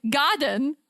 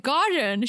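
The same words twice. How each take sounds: First: Put-on British-accented "Garden". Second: Said in the usual way. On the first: Retelling the mix-up with staff, mock British accent. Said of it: "I did a British accent". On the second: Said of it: "do an American accent".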